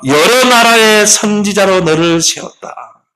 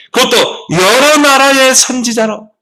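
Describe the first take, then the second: First: Slow, higher and louder, weighing 여러 as the verse is read; slow solemn verse, stress on 여러; scripture reading. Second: Much higher and louder, slow, hitting 여러 hard; slow soaring preacher's shout on 여러; emphatic repeat. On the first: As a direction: read 여러 나라의 선지자로 slowly and solemnly. Reads the verse aloud. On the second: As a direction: cry out 여러 나라의 선지자로 as a rallying climax. Repeats the verse to drive it home. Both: Acted.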